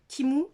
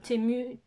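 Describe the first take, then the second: First: The first vowel sounds like 'ee'. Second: The first vowel sounds like 'eh'. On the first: The speaker calls it right. "c'est comme ça que ça se prononce" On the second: The speaker calls it wrong. "je dis Temu, mais c'est pas Temu"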